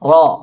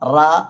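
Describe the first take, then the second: First: The r is heavy, with a rounded o-like vowel. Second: The r is light, with an open a vowel. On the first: The speaker calls it right. "റാ തഫ്ഖീമാക്കി ഉച്ചരിക്കണം" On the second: The speaker calls it wrong. "റ എന്ന് വായ ഓപ്പൺ ചെയ്ത് പറയാതെ"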